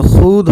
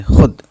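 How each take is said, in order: First: "खुद" with a long oo, khood; spelling pronunciation. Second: "खुद" with a short u, khud; short vowel. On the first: Teacher showing how spelling suggests it, long vowel. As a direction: stretch the vowel of खुद as the letter vav suggests. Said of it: "वैसे तो खुद होना चाहिए". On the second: Teacher showing how it is really read, short vowel. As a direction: keep खुद short, the vav silent. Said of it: "हम इसको खुद पढ़ेंगे". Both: Shown as a demonstration.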